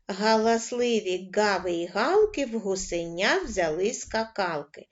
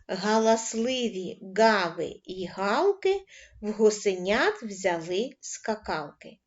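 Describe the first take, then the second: First: The line is read at a moderate pace. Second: The line is read at a slow pace. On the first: "кожен раз пришвидшуємо темп" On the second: "працювати починаємо із повільного темпа"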